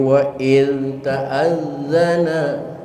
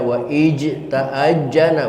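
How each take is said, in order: First: The consonant is pronounced as a z sound. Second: The consonant is pronounced as a j sound. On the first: The speaker calls it right. "Tapi wa il ta'azzana" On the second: The speaker calls it wrong. "jangan dibaca wa ij ta'ajjana, bukan"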